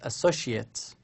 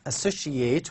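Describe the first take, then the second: First: It is said with the noun pronunciation. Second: It is said with the verb pronunciation. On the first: It names a person, such as a partner. "another meaning is associate" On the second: It is an action word meaning to connect. "with this pronunciation is a verb"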